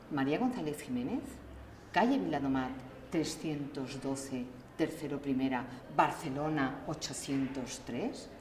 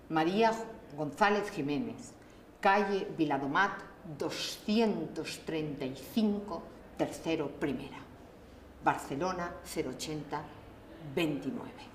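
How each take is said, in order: First: The same phone-book line read faster with a new tune; different intonation. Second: Reading the phone-book line with a lively, varied tune; playful intonation. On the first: Reading the phone-book entry again with a contrasting tune. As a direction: give the address a fresh melody, quickly. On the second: Reading a phone-book entry aloud to practise varied intonation. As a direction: sing the address out like it means something. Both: Shown as a demonstration. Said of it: "cambiando entonación desde la sorpresa".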